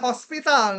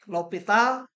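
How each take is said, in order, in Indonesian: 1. Bunyi s terdengar sebelum p. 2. Tidak ada bunyi s yang terdengar sebelum p. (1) "Jangan hospital" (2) "Tapi bacanya L'Hopital"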